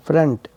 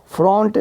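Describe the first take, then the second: First: फ्रंट said as "frunt" with a schwa; correct short A vowel. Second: फ्रंट said as "front" with a round O; mistaken O vowel. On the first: Teacher correcting the mistake, short UH in फ्रंट. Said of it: "ओ की आवाज़ अ की है". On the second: Teacher showing the mistake to avoid, round O in फ्रंट. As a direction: say फ्रंट as "frawnt". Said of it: "फ्रंट नहीं". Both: Shown as a demonstration.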